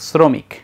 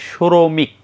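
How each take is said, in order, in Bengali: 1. এটি সাধারণ s ধ্বনি দিয়ে শুরু হয়। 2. এটি sh ধ্বনি দিয়ে শুরু হয়।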